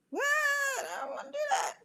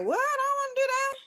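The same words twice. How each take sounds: First: Put-on very high, quieter kid voice; hushed squeaky little-kid refusal; soft childish whine. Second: Put-on very high, whiny kid voice; squeaky little-kid refusal; childish whine. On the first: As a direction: whimper it like a sulking child. Repeated whiny inner voice, softer. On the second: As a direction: protest like a small child. Acting her whiny reluctant inner voice.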